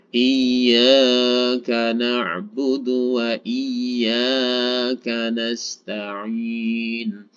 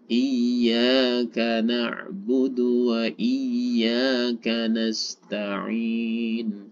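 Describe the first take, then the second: First: The long vowels are stretched out too far. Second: The long vowels are held only briefly. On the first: The speaker calls it wrong. "Jangan terlalu panjang. ... akan menjadi lebih dari dua harokat" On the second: The speaker calls it right. "Karena ketentuannya ini adalah"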